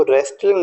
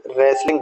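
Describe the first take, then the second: First: रेस्टलिंग said with a sounded t, res-tling; wrong pronunciation. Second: रेसलिंग said as res-ling, the t silent; correct pronunciation. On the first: Teacher showing students the wrong रेस्टलिंग. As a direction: sound out रेस्टलिंग with the t to show the mistake. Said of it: "नहीं बोलेंगे". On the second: Teacher modelling रेसलिंग for students. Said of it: "रेसलिंग बोलेंगे". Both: Shown as a demonstration.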